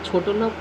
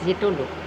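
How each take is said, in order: First: The first vowel is an 'o' sound. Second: The first vowel is an 'e' sound. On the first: "ছোটো লোক না" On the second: "আমাকে লিখেছে ছেটো লোক"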